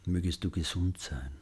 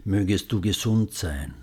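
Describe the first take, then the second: First: Much softer repeat; hushed loving echo. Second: Tender, clear spoken wish; gentle and loving. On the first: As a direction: echo the wish very quietly. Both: Shown as a demonstration. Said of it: "Wiederholen Sie die Sätze sanft und liebevoll".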